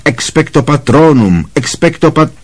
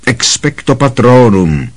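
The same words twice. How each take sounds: First: Higher, desperate spell cut off; repeated spell, pitched higher and strained; rising shriek. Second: A hint of a desperate shriek; Harry shrieking the spell. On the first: Harry shrieks spell again, cut off. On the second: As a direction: cry out the spell, mildly. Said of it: "zaječel Harry". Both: A narrator's reading.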